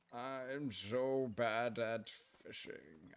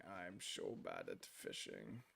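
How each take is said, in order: First: Slow, drawn-out, quieter whine; mock lament. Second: Much lower, much softer, slow goofy rumble; silly deep voice. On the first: Streamer moaning to chat about fishing, slow mock whine. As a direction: sulk it out slowly, half joking. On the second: Pretend. Streamer joking to chat about fishing, goofy low rumble. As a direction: drop into a comic low rumble.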